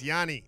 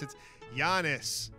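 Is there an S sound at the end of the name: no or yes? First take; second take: no; yes. First: The name ends without any S sound. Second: The name ends with an audible S sound. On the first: The speaker calls it right. "Don't pronounce the S" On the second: The speaker calls it wrong. "as soon as they see the S, it's Giannis"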